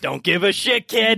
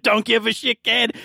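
First: Gruff dismissive NPC. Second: Retold biker snarl; gruff dismissive NPC. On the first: Acted. NPC snarls at kid. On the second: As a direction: toss it off with a sneer. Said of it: "He's like".

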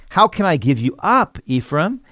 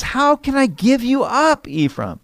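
First: Said in the usual way. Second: Much higher, aching plea; high, tender plea from God; God pleading. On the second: Acted. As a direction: let God's heart break on "How can I give you up". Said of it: "he says".

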